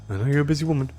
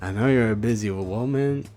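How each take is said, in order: First: It is said in a plain, ordinary voice. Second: It is said in a laid-back surfer-bro accent.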